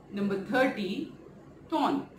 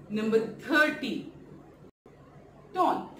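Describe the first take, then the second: First: "taunt" as French trente, laughing lightly; French pronunciation with a laugh. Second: "Taunt" said as French trente, nasal ending, no t sound at the end; French pronunciation. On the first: Teacher repeating thirty in French, amused. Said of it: "This is not Toronto, this is taunt". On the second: Teacher modelling thirty in French for students. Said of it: "we call it". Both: Shown as a demonstration.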